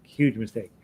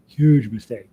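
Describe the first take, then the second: First: Said in the usual way. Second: HUGE hit loud and hard; emphatic warning. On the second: Acted. Teasing students who skipped harmonica, loud mock warning. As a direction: punch "huge" like a mock scolding.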